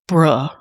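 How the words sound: It is said in a disappointed tone. The speaker is let down.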